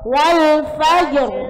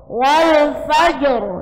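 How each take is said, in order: First: The phrase stops on a heavy r sound. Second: The same.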